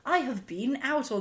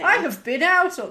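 First: The word been has a long vowel, like bean. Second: The word been has a short vowel, like bin. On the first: "I don't like saying bean" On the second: "even then I said bin"

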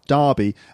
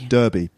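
First: It is said in a British accent. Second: It is said in an American accent. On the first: "So derby for us, it's also a town... we'd pronounce it R, derby" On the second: "And in America, it makes more sense"

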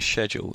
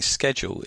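First: The word is said the British way. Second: The word is said the American way. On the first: "schedule is English" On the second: "schedule is American"

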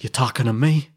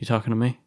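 First: It is said loudly with intense energy. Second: It is said quietly, as if to oneself. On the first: This is how people imitate the line. The speaker calls it wrong. "people do the impression of like" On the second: This is how the line is said in the film. The speaker calls it right. "It's very subdued"

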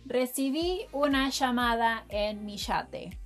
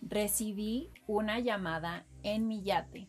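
First: It is said in a Rioplatense Argentine accent. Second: It is said in a general Spanish accent.

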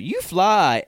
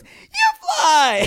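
First: It is said in a lower voice. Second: It is said in a higher voice.

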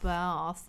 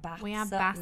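First: It is said in a southern English accent. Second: It is said in a northern English accent. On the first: This is how people elsewhere say it. The speaker calls it wrong. "Not baths" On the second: This is how people in her home region say it. The speaker calls it right. "And we have baths"

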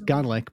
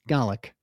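First: The word is said with an R sound. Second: The word is said without an R sound. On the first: "So it's garlic" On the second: "but you don't put the R in"

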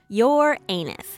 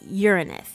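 First: It sounds like the phrase 'your anus'. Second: It is said as the planet name, not 'your anus'. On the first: The speaker calls it wrong. "I think I'm pronouncing that wrong" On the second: The speaker calls it right. "It's Uranus"

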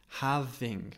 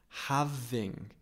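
The two takes are said the same way.

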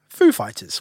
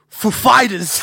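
First: The stress falls on the word Foo. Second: The stress falls on the word Fighters. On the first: This is the usual way the band name is said. The speaker calls it right. "we all know the pronunciation's on the Foo" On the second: This is an unusual way meant to sound funny. The speaker calls it wrong. "it's on Fighters"

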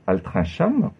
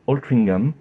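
First: It is pronounced the French way. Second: It is pronounced the English way.

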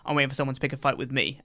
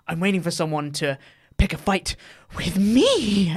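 First: It is said seriously, fading out quietly. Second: It is said in a smiling, manic way.

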